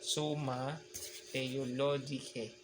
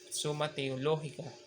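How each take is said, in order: First: The last word ends in an 'ae' sound. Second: The last word ends in a plain 'a' sound. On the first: "sa Latin, iba. Ang dulo ay E. A-E pag binasa" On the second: "Kasi sa Spanyol, pwede Summa Theologica"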